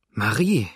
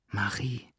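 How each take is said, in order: First: Louder, sharp call of her name; a sudden anguished cry. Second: Barely audible. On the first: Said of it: "rief aber Adele". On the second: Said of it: "Leise, fast unhörbar". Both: A narrator's reading.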